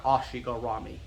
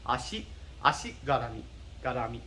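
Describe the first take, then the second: First: "ashigarami" as heavy "AH-shee-go-RAH-mee"; wrong overemphasis. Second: "ashi garami" even and low-key, tapped R; light first syllable. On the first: Teacher showing what it's not, overemphasised pronunciation. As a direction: lean hard on "ashigarami", English vowels and R. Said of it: "putting a lot of emphasis". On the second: Teacher showing the second one matters, even pronunciation. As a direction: glide over the start of "ashi garami". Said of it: "It's the second one that matters". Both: Shown as a demonstration.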